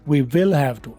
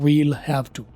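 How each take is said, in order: First: 'Will' is said in full and stressed. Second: 'We will' is shortened into one quick syllable. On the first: "विल के ऊपर मैं stress दे रहा हूँ" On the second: "आमतौर पर व्हील लिखा जाएगा रिड्यूस करके"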